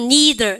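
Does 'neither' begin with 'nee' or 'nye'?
nee. It begins with a 'nee' sound. "우리는"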